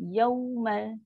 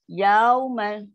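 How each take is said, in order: First: The first syllable is held for one beat. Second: The first syllable is stretched to two beats. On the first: The speaker calls it right. "Sedangkan ya tu satu je" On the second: The speaker calls it wrong. "Bila melirik tu kan bunyi yaumal qiyamah... ya tu dah jadi panjang"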